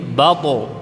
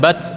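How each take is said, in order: First: The final consonant is heavy and bounces out. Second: The final consonant stops short with no echo. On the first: The speaker calls it right. "Jadi tebal dan memantul" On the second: The speaker calls it wrong. "bukan bat"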